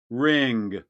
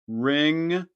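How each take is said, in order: First: The ng ends with a released g. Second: The ng ends with no g release.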